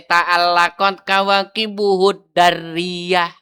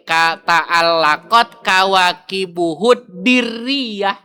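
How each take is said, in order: First: The d in the last word takes an a vowel. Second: The d in the last word takes an i vowel. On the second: "Boleh tiga"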